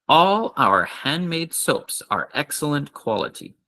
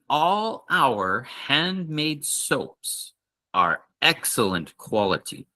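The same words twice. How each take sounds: First: It is said a little faster. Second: It is said at a normal, careful pace.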